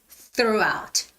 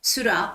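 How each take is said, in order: First: The word begins with a th sound. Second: The word begins with an s sound. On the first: The speaker calls it right. "It's throughout" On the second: The speaker calls it wrong.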